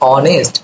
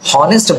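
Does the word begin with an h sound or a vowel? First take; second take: vowel; h sound. First: The word begins directly with a vowel sound. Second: The word begins with a spoken h sound. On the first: The speaker calls it right. "ও এর উচ্চারণটা আসছে" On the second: The speaker calls it wrong. "আমরা হনেস্ট বলছি না"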